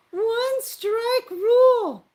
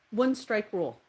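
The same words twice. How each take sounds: First: Drawn-out proclamation. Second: Said in the usual way. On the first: Pretend. Stretched emphatic rule.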